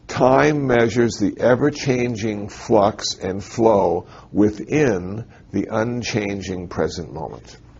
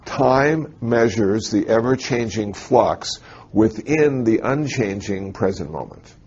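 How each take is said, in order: First: It is said slowly and deliberately. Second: It is said at normal speed.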